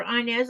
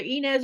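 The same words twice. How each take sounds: First: Inez said as EYE-nez; first-syllable EYE. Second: Inez said as EE-nez; first-syllable EE. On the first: Host offering another reading of a viewer's name, Inez as EYE-nez. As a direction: start Inez with the sound of EYE. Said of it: "I'm not sure which". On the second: Host unsure of a viewer's name, Inez as EE-nez. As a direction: say Inez with a long EE at the start. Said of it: "It's either Inez or Inez". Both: Shown as a demonstration.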